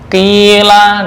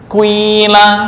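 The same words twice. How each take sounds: First: The first vowel is a plain 'i'. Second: The first vowel starts rounded, then becomes 'i'.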